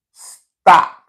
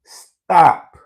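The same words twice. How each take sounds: First: Loud, higher stop; emphatic command. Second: Loud, higher stop said again; repeated emphatic stop. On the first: Warning the viewers, loud stop. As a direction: bark the warning hard. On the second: Repeating the warning to viewers, loud. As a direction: hammer the word stop home. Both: Real, not acted. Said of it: "I repeat".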